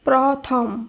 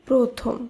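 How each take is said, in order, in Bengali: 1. প্রথম স্বরধ্বনিটি 'ও' ধ্বনি নয়। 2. প্রথম স্বরধ্বনিটি 'ও' ধ্বনি। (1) "নয়" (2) "শব্দটি শুদ্ধ উচ্চারণ"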